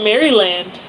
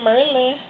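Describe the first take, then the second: First: The word is said with three full syllables. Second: The word is squeezed into two syllables. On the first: This is how it looks from the spelling. The speaker calls it wrong. "some people call it Maryland. But that's actually not how you pronounce it" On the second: This is how locals say it. The speaker calls it right. "we call it Merlin"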